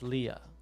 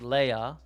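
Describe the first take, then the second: First: The name is said the English way. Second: The name is said the German way. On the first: "in English it's Leah" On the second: "Princess Leia in German"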